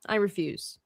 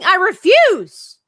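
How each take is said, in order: First: Said in the usual way. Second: Loud, high, drawn-out refusal; mock defiant yell. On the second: Answering talk of dying, mock defiant yell. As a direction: belt it out in playful protest.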